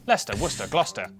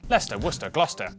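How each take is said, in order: The two takes are said the same way.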